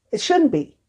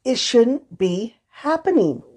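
First: Shouldn't said higher and hard; stress on shouldn't. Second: Said in the usual way. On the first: Real, not acted. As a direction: lean hard on shouldn't, pitch jumps up.

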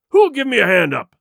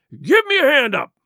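First: Loud, angry pirate roar; booming demand, high at the start and falling. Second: High, loud pirate cry; sharply raised, demanding shout. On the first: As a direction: roar it at everyone around. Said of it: "he roared". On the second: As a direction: yell out for help in a rage. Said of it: "he cried". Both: A narrator's reading.

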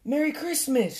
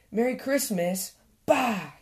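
First: High-pitched squirrel call; cheery shout. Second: Mildly scornful retort; grumpy shout back. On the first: Squirrel calling a Christmas greeting to Badger, cheery high shout. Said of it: "shouted Squirrel". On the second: Badger answering Squirrel's greeting, mild grumpy shout back. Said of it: "he shouted back". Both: A narrator's reading.

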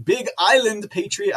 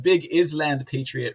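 First: Said in the usual way. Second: "Island" said as IZ-land, with the s sounded; deliberate misreading. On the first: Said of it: "I should have said Big Island Patriot". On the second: Shown as a demonstration. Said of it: "I should have said".

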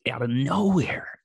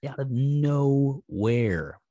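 First: Breathy whisper, drawn out a little; hushed, pointed whisper. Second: Slow, deliberate repeat; very slow emphasis. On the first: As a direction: whisper it like a secret. Stressing how sudden the attack was. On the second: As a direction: stretch each word out slowly. Repeats the phrase, slowing it for emphasis. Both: Real, not acted.

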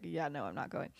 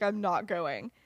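First: Low, soft retold refusal; muted refusal. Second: Mildly emphatic retold refusal; loud refusal. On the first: Lily refusing after finishing the letter, muted. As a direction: say it softly, dropped in pitch. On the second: Lily refusing her sister's wedding invitation, retold as loud. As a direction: state it firmly, only mock-loud. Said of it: "says very loudly".

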